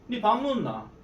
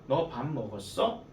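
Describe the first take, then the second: First: It is said in a regional Korean dialect. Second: It is said in standard Seoul Korean.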